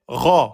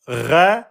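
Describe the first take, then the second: First: The syllable is heavy, with an o-like vowel. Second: The syllable is light, with an e-like vowel. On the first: The speaker calls it right. "c'est Ro, c'est le R français emphatique" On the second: The speaker calls it wrong. "C'est pas Ré"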